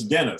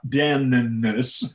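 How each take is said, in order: First: The N sound is said only once. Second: The N sound is doubled, said twice. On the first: The speaker calls it right. "it only has one N sound" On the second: The speaker calls it wrong. "It's not Dennis"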